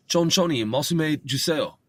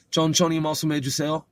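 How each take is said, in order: First: "Chonchoni, masume juseo" starting high, then coming down; polite request as statement. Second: "Chon choni mosume juseo" higher, rising at the end; questioning intonation. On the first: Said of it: "I'm making a statement in such a way". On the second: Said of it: "sounds like I'm asking a question". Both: Shown as a demonstration.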